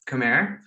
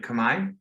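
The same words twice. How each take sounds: First: The final R sound is pronounced. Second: The final R sound is silent. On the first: The speaker calls it wrong. "A lot of people say Khmer" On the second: The speaker calls it right. "it's actually Khmer. Um, it's just that the the R consonant at the end is is uh, silent"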